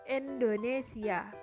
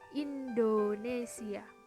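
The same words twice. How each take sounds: First: An i vowel is said as open e. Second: The vowel is said as a clear i. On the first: The speaker calls it wrong. "I diucapkan menjadi e taling" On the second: The speaker calls it right.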